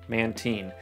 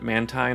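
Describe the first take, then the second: First: The ending sounds like 'marine'. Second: The ending does not sound like 'marine'. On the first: This is the English pronunciation. The speaker calls it right. "a combination of manta ray and like the marine" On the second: This is the older pronunciation from early seasons. The speaker calls it wrong. "it pronounced it Mantine. Apparently that was how it was pronounced like in the early seasons"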